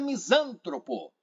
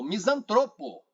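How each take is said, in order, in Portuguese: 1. O acento está na segunda sílaba. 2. O acento está na terceira sílaba. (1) "não é misântropo" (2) "é o misantropo"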